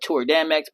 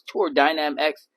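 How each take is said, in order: First: The middle word is said as one syllable. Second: The middle word is said as two syllables. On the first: This is the speaker's own habitual way of saying it. "I call it Tour Dam X" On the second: This is the official name of the product. "but it's Tour Dynam X"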